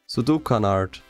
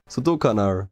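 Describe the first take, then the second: First: The name ends with an audible D sound. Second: The name ends without any D sound.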